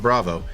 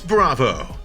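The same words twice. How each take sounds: First: Bravo is said flatly, without extra energy. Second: Bravo is punched with a long, energetic O.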